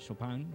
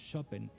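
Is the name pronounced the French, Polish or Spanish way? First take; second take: French; Polish. First: The name is said with a French pronunciation. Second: The name is said with a Polish pronunciation. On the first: "cuando Chopin se fue a Francia pues derivó a un Chopin" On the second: "en el idioma polaco, así es como se pronunciaría"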